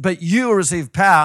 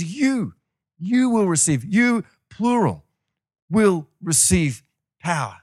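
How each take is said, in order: First: YOU punched loud, rest rolling on quickly; loud, eager emphasis on "you"; stress on YOU. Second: High, deliberate "You", each phrase set apart; slow, emphatic teaching, leaning on every "you"; stress on plural YOU. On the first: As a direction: read it loud, landing on "you" as if singled out. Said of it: "if somebody says you, it means me". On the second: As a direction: spell out "plural" slowly after a raised "you". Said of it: "he's addressing a group of people". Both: Acted.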